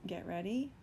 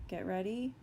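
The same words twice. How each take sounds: The two takes are said the same way.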